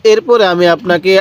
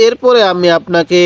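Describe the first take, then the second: No difference in how they are said.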